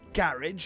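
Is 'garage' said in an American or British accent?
British. The word is said with a British pronunciation.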